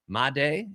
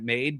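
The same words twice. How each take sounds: First: It does not sound like the English 'made'. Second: It sounds like the English word 'made'. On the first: The speaker calls it right. "apparently how it's said" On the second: The speaker calls it wrong. "I was calling it Made because that's how it's spelled"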